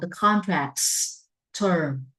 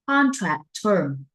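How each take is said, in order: First: An s sound links contract to term. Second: No s sound links contract to term. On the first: The speaker calls it right. "phải xây cái cầu. Và mình phải build a bridge" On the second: The speaker calls it wrong. "please be careful"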